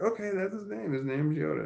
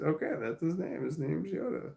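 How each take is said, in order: First: Put-on lightly higher, kid-like daughter; a hint of a little girl agreeing; daughter's voice. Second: Said in the usual way. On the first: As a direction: play the young daughter, light and bright. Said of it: "And she's like". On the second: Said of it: "And I said".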